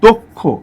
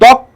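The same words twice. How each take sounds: First: The first vowel sounds like o. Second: The first vowel sounds like a. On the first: The speaker calls it right. "তার আগের অটা ও এর মতো হবে" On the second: The speaker calls it wrong. "এটা কিন্তু দক্ষ না"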